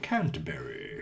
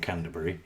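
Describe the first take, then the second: First: It is said in a posh accent. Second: It is said in a plain everyday accent.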